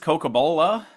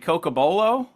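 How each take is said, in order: First: The word ends with an 'ah' sound. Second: The word ends with an 'oh' sound. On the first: The speaker calls it wrong. "I ended it with an A" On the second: The speaker calls it right.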